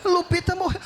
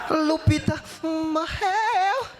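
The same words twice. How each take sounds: First: Sharp shouted repeat of Lupita morreu; shocked disbelief. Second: Slow, drawn-out Lupita morreu, hammed-up grief; mock tragic. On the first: Retold or imitated. Son shouting the news back at his mother, stunned. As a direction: blurt out the dog's death in shock. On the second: Calling the boss to announce the dog's death, slow and hammed-up. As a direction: stretch the news out like a tragedy.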